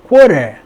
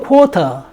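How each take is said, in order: First: The r is sounded and the t is flapped. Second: The r is dropped and the t is strong. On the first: "R 발음이 살리면서 T를 르로 quarter 그렇게 발음하고" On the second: "영국에서는 quarter"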